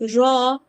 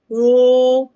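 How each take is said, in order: First: The letter is said with relaxed lips. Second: The letter is said with rounded lips. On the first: The speaker calls it right. "when we read raw" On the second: The speaker calls it wrong. "That is wrong because they are using rounding lips"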